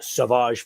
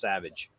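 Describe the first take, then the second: First: The name is pronounced the French way. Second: The name is pronounced the plain English way. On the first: "am I doing it French Frenchified enough" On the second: "or is it just Savage?"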